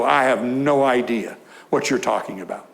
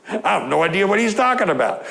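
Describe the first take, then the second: First: Lightly voiced puzzled reader, said low and even; mild bewildered quote. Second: Quick, a touch higher puzzled protest; mock bewildered. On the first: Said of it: "I just kinda go". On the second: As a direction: rattle it off like a baffled listener. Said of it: "What did he say?".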